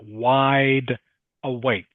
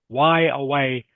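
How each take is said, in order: First: The final D and K sounds are pronounced. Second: The final D and K sounds are dropped. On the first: The speaker calls it right. "Must say wide awake" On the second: The speaker calls it wrong. "you cannot say why away"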